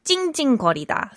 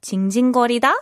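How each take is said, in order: First: 징징거리다 with tight tense ㅉ sounds. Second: 징징거리다 with plain lax ㅈ sounds. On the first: Teacher contrasts the whining word for students, tense 징징거리다. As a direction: squeeze the consonants in 징징거리다 hard. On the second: Teacher contrasts the whimpering word for students, plain lax 징징거리다. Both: Shown as a demonstration. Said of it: "make sure you're pronouncing that correctly".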